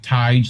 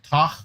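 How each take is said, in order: First: The vowel sounds like the one in 'tiger'. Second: The vowel does not sound like 'tiger'. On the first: It is how the name's owner says it. The speaker calls it right. "like tiger, ... that's the anglicized version" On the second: It is a guess read from the spelling. The speaker calls it wrong. "the way it's spelled out Gaelically would be like Tach"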